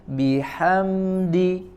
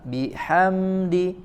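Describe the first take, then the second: The two takes are said the same way.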